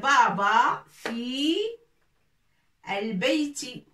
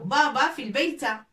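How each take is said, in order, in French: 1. Le dernier mot finit par la voyelle i. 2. Le dernier mot finit par la voyelle a.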